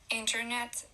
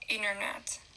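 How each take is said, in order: First: The T after the N is pronounced. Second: The T after the N is dropped.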